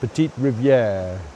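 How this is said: It is said with a French pronunciation.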